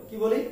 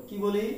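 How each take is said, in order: Both takes have the same delivery.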